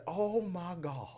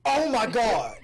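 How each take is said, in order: First: Slow, hushed mock disbelief; breathy whispered shock; attorney impression. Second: Loud, high gasp of disbelief; hammed-up oh-my-God outburst; mock shock. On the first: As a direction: whisper it slowly, as if appalled. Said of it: "let me do my lead". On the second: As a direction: exclaim it big and scandalized. Playful shocked reaction to mamas remark.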